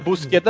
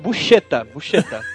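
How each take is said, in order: First: The middle consonant is a hard k sound. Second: The middle consonant is a soft sh sound. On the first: The speaker calls it wrong. "inventaram aqui no Brasil que era Busqueta" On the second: The speaker calls it right. "vamos falar o nome dele certo"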